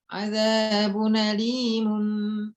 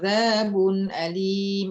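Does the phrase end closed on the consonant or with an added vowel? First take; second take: added vowel; consonant. First: The phrase ends with an added vowel and nasal. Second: The phrase ends closed on the final consonant. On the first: The reciter connects to the next words. "Kalau wasolnya gimana?" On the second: The reciter stops at this point. "itu berarti wakof"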